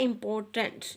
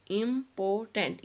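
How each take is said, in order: First: Said in the usual way. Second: important split into im, por, tant; syllables separated. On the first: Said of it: "इसके syllables को separate करना है". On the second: Shown as a demonstration. Teacher showing children how to separate syllables, syllable by syllable. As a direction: say important one syllable at a time. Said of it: "इस तरह से बच्चों आपने इसके syllables को separate करना है".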